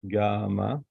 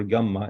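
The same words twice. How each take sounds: First: "gamma" with a long first a and single m; long-vowel variant. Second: "gamma" with a short a and held double m; double-M variant. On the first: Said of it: "how you pronounce it". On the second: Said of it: "how you pronounce it, double M A". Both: Shown as a demonstration.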